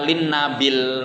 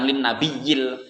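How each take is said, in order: First: The word 'nabi' is shortened, with no extra syllable. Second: The word 'nabi' carries an extra 'yi' syllable. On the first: This reading fits the verse meter. The speaker calls it right. "yang benar begitu" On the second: Correct in prose but breaks the verse meter. The speaker calls it wrong. "bukan lin nabiyil"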